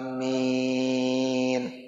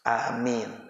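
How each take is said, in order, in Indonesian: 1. Vokalnya dibaca panjang. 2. Vokalnya dibaca pendek. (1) "Biasanya panjang ya, panjang" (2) "Ya yang pendek amin"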